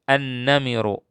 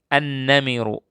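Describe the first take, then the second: Both takes have the same delivery.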